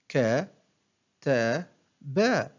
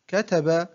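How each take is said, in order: First: One short syllable at a time, with pauses; broken into syllables. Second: Said in the usual way. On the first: Shown as a demonstration. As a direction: separate each syllable for a learner to copy. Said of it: "أقطع الكلمة إلى مقاطع قصيرة". (تقطيع الكلمة مقطعًا مقطعًا بوقفات) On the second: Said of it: "أقطع الكلمة".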